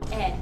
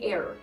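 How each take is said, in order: First: It is said in a British accent, r dropped. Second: It is said in an American accent, r sounded. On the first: "In British, it's air" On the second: "In America, we say air"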